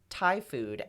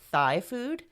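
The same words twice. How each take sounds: First: Thai is pronounced in the usual way. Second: Thai is pronounced in an odd, altered way. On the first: The speaker calls it right. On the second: The speaker calls it wrong.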